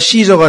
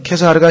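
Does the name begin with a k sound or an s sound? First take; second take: s sound; k sound. First: The name begins with an s sound. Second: The name begins with a k sound. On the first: "영어로 오면" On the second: "라틴어로는 K로 발음이 됩니다"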